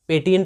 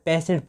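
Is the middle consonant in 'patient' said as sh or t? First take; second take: t; sh. First: The middle consonant is a plain t sound. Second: The middle consonant is an sh sound. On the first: The speaker calls it wrong. "पेटियंट नहीं पढ़ना है" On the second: The speaker calls it right. "पेशेंट पढ़ना है"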